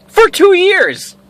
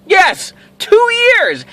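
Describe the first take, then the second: First: "for two years" drawn out slowly and pitched high; emphatic, slow. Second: "Yes, two years" high and slow with "two" punched hardest; stronger emphasis. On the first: Telling the audience how long she stalked him, drawn out slowly. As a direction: lean hard on "two years". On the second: Repeating the stalking time to the listeners, slowly and pointedly. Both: Real, not acted.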